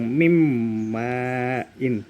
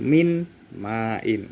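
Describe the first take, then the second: First: The n sound merges fully into the m. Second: The n sound is kept before the m. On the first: The speaker calls it right. "Bacanya langsung mim main" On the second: The speaker calls it wrong. "Bukan min main. Itu salah"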